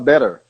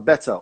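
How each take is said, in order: First: The middle consonant is a soft R-like sound. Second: The middle consonant is a clear T sound. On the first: This is how Americans say it. "O americano ele fala better" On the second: This is how the English say it. "eu falo com T, é, que é o que é pronunciado pelos, pelos ingleses"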